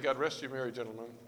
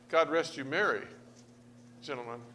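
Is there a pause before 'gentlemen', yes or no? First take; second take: no; yes. First: Merry gentlemen runs together without a pause. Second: There is a pause between merry and gentlemen.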